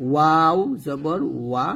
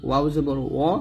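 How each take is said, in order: First: ওয়াও জবর ওয়া slow, lips rounded into ওয়া; slow careful ওয়া with rounded lips; correct pronunciation. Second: ওয়াও জবর অ said with a plain অ vowel; wrong pronunciation. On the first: Teacher gives students the correct form, slow and careful. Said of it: "সঠিক উচ্চারণ হচ্ছে ওয়া". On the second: Teacher shows students the common mistake, wrong vowel. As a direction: demonstrate the wrong অ ending. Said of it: "তো অ উচ্চারণটা ভুল". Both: Shown as a demonstration.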